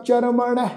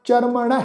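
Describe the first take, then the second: The two takes are said the same way.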